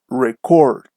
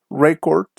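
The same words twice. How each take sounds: First: ReCORD, second syllable long and falling; verb stress. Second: REcord, first syllable stressed; noun stress. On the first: Teacher shows students the verb form, slow stress on CORD in "record". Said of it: "the stress is on the second syllable". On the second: Teacher shows students the noun form, stress on RE in "Record". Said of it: "the stress is on the first syllable". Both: Shown as a demonstration.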